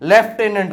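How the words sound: It is said in a British accent, 'left-enant'. "British English પ્રમાણે લેફ્ટેનન્ટ"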